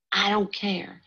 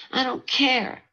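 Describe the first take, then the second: First: I don't care said higher, stubborn; first I don't care, sulky and high; defiant. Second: I don't care much higher, louder, almost a cry; second I don't care pushed up into a cry; rising anger. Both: Acted. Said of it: "said Frankie angrily".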